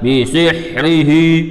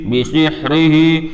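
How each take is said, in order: The two takes are said the same way.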